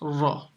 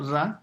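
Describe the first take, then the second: First: The r is heavy, with a full mouth. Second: The r is thin, with a light mouth. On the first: The speaker calls it right. "It's a raw full mouth" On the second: The speaker calls it wrong. "It's not ra"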